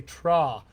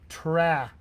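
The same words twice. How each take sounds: First: "tra" with a long open back "ah"; British broad A. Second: "tra" with the front "a" of "cat"; American TRAP vowel. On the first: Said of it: "we need you to say tra". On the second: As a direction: hold a flat front vowel in "tra", slowly. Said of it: "you're saying this". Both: Shown as a demonstration.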